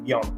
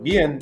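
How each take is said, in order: First: The word is said with a French pronunciation. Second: The word is said with a Spanish pronunciation. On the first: "it's more like bien" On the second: "instead of like bien"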